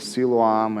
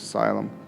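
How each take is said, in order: First: It is said with a Jewish-style pronunciation. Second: It is said with an English-style pronunciation. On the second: "English is Siloam"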